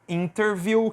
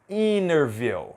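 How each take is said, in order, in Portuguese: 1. O T depois do N é pronunciado claramente. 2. O T depois do N não é pronunciado. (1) "Se você pronunciar do jeito que está aqui, vai estar correto" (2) "é muito comum a gente não pronunciar a letra T depois da letra N"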